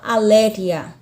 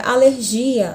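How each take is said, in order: First: ALÉRIA stressed on LÉ, breathy G; Spanish stress. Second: ALERGIA stressed on GI, a-ler-ZHI-a; Portuguese stress. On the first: Teacher contrasts the Spanish word, stress on LÉ. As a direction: hit the LÉ of ALÉRIA. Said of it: "na língua espanhola". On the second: Teacher gives the Portuguese example, stress on GI. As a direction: lean on the GI of ALERGIA. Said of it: "Na língua portuguesa eu tenho a palavra". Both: Shown as a demonstration.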